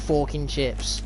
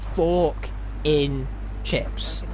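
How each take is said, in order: First: The phrase is said fast, words run together. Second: The phrase is said slowly, each word apart. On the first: It sounds like a rude word. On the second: It names a fork stuck in chips.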